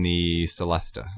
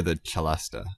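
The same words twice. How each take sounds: First: Celesta said with an opening s sound; soft-c pronunciation. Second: Celesta said with an opening ch sound; ch pronunciation. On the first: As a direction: say celesta as "seh-LES-tuh". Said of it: "however you want to pronounce it". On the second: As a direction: say celesta as "cheh-LES-tuh". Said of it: "I've heard it pronounced both ways". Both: Shown as a demonstration.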